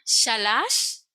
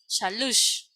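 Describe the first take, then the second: First: The last syllable has an a vowel. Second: The last syllable has a u vowel. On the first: "la pronunciamos como A" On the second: "o puede ser la U"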